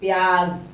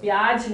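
First: The word ends with a buzzing z sound. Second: The word ends without a buzzing z sound. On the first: The speaker calls it right. "You have to say pyaz. Z z z" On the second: The speaker calls it wrong. "Pyaz nahi"

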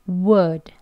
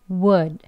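Both takes have the same delivery.

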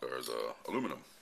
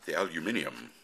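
First: The word is said the American way. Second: The word is said the British way.

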